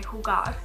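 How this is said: It is said with a Spanish-sounding accent. The speaker calls it right. "that sounded like somewhat Spanish"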